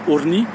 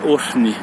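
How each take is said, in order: First: The r has no breathy h after it. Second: A breathy h is heard after the r. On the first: The speaker calls it wrong. "Si je dis juste orni, ça fonctionne pas" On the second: The speaker calls it right. "on entend bien un petit H souffler derrière"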